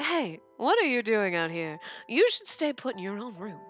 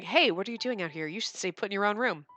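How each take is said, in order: First: It is read in a put-on character voice. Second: It is read in the speaker's ordinary voice.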